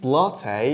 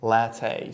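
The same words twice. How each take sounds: First: It is said with an American pronunciation. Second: It is said with a European pronunciation. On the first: "It's latte in American accent" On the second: "some people in Europe say latte"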